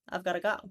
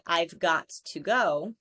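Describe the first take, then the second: First: 'Got to' is reduced to 'gotta' with a schwa. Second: 'Got to' is said in full, with a clear 'to'. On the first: "most people will say gotta" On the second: "instead of saying got to"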